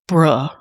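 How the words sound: It is said in a disappointed tone. The speaker is let down.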